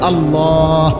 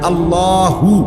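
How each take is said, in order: First: The word ends with a breathed-out h sound. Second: The word ends with a full 'hu' syllable. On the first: The speaker stops at this word. "শ্বাস ফেলাইলে হলো আল্লাহ" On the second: The word runs on without a stop. "আল্লাহ মানে আল্লাহু"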